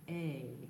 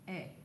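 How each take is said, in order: First: The vowel glides from A toward I. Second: The vowel is one pure, unchanging sound. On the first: The speaker calls it right. "we glide from A to I" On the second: The speaker calls it wrong. "But you may just say A"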